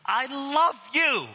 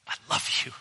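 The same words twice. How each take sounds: First: High, slow and eager like a bounding dog; a dog overjoyed to see you. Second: Hushed, whispered I love you; Jesus whispering love to the accused; tender whisper. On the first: Retold or imitated. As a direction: gush it out like an excited puppy. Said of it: "He's like". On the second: Acted. Jesus wearing your jersey, tender.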